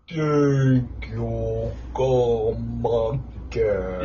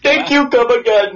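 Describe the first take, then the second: First: It is said very slowly, stretched out. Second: It is said at a normal speed.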